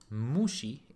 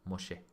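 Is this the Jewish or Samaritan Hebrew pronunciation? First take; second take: Samaritan; Jewish. First: It is said with Samaritan Hebrew pronunciation. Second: It is said with Jewish Hebrew pronunciation. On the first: "in ancient Hebrew, Samaritan Hebrew"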